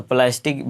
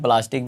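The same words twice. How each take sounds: First: "प्लास्टिक" with an ae in the first syllable; English-style pronunciation. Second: "प्लास्टिक" with a long aa in the first syllable; aa-vowel pronunciation. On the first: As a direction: say "प्लास्टिक" the English way, as plae-stik. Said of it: "कई लोग जो है प्लय पढ़ते हैं". ("प्लास्टिक" को प्लैस्टिक जैसा बोलें) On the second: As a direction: say "प्लास्टिक" as plaa-stik. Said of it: "हम लोग भाई तो प्लास्टिक ही बोलेंगे". ("प्लास्टिक" में लंबा आ बोलें) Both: Shown as a demonstration.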